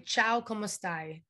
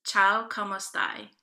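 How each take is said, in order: First: Ciao come stai spoken slowly, CHOW KOH-meh STIGH; slow model phrase for the learner; Italian model. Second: Ciao come stai repeated slowly and carefully; learner's slow try. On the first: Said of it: "So say, say". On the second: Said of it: "Yeah, beautiful". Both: Shown as a demonstration.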